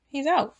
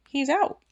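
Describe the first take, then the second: First: Much higher and louder, falling; astonished. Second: Much higher and louder, rising; astonished. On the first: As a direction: hammer it home in disbelief. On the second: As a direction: announce it in disbelief. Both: Real, not acted. Stunned by Cosby's release.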